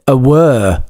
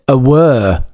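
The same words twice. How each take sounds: First: The vowel sounds like the one in 'her'. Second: The same.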